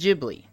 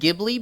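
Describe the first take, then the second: First: The word does not begin with a hard G. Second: The word begins with a hard G sound. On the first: The speaker calls it right. "The correct pronunciation is Ghibli" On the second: The speaker calls it wrong. "You think it's pronounced Ghibli because it starts with a G?"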